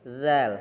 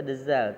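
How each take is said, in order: First: It is said as a single syllable. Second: It is said as two syllables, de-zal. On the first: The speaker calls it right. "tapi zal" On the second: The speaker calls it wrong. "tidak bisa dezal"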